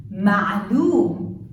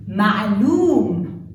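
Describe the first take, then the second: First: Ma'loom repeated with a choked ain; Ma'loom said again, throaty ain; Arabic pronunciation. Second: Ma'loom with a choked ain; Ma'loom said loud, throaty ain; Arabic pronunciation. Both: Shown as a demonstration. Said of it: "examples on the letter Ain".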